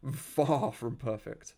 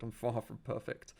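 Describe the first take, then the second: First: FAR drawn out slowly and stressed; emphatic repeat. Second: Said in the usual way. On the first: Real, not acted. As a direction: stretch the word FAR for emphasis.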